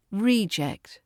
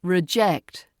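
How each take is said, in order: First: REEject, stressed long "ee" up front; stress on first syllable. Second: RiJECT, short first vowel, strong ending; stress on second syllable. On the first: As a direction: say "Reject" as the noun, REE-ject. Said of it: "as a noun". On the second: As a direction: say "Reject" as the verb, ri-JECT. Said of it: "As a verb". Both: Shown as a demonstration.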